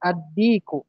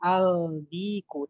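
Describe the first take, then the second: First: The 'l' merges into a doubled 'd'. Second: A clear 'l' is heard before the 'd'. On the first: The speaker calls it right. "tapi adiku" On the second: The speaker calls it wrong. "Tidak boleh dibaca aldiku"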